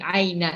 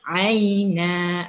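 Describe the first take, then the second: First: The final vowel is cut short. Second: The final vowel is drawn out long. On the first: The speaker calls it wrong. "pendek aina, tidak boleh" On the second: The speaker calls it right. "Ha, boleh"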